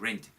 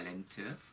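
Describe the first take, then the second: First: It starts with an English R sound. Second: It starts with a Korean-style sound, without English R. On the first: The speaker calls it right. "R 발음이니까 rent 이렇게 돼요" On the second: The speaker calls it wrong. "렌트 아닙니다"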